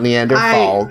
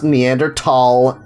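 First: The middle consonant is a th sound. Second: The middle consonant is a plain t sound. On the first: The speaker calls it wrong. "not Neanderthal" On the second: The speaker calls it right. "I know it's pronounced Neanderthal"

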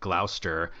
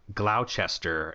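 First: The word is pronounced in a shortened form. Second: The word is pronounced closer to its spelling. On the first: The speaker calls it right. "instead of" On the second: The speaker calls it wrong. "I kept on saying Gloucester instead of"

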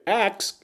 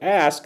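First: It is said 'aks', as in Black American speech. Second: It is said 'ask', as in white American speech.

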